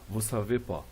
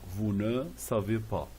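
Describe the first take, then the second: First: The word ne is dropped. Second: The word ne is pronounced. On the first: This is everyday Parisian speech. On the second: This is the standard form.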